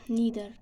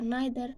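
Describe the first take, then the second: First: "neither" as NEE-ther; American "neither" with a long e. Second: "neither" as NYE-ther; British "neither" with a long i. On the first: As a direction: say "neither" with an ee vowel. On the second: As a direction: say "neither" with an eye vowel. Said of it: "British are". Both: Shown as a demonstration.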